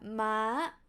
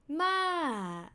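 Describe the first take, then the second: First: The syllable is said on a high pitch. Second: The syllable's pitch falls from high to low. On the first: It means horse. "high tone means horse" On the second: It means grandma. "falling tone means grandma"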